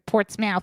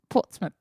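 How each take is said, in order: First: It is said with an American accent. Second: It is said with a British accent.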